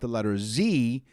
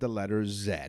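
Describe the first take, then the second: First: The letter is pronounced the American way, zee. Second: The letter is pronounced the Canadian way, zed.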